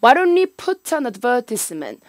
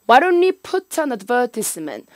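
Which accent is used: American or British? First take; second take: British; British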